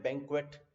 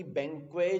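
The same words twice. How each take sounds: First: बैंक्वेट as BANK-wet; t sounded. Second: बैंक्वे as BANK-way; without t. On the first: Teacher noting the exception, बैंक्वेट with its t sounded. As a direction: finish बैंक्वेट on a t. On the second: Teacher setting an exception aside, बैंक्वे with no t. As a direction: leave बैंक्वे open-ended, no t. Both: Shown as a demonstration. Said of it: "उसमें टी बोला जाता है".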